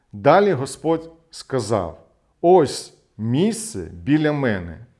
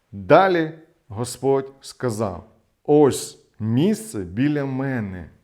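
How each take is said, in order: No difference in how they are said.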